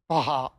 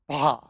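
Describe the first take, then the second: First: The breathiness is exaggerated into two syllables. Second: The breathy sound stays within one syllable.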